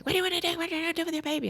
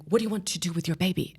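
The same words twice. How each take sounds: First: High, urgent mock yell at the mother. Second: Urgent question. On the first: Doctor urgently yelling at the mother, mock yell. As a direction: retell the doctor's urgent barked question. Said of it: "yelling at me". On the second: Retold or imitated. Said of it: "he's like".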